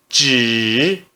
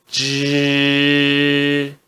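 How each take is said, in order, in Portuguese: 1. A sílaba é pronunciada com o terceiro tom. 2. A sílaba é pronunciada com o primeiro tom. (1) "No terceiro tom" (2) "No primeiro tom"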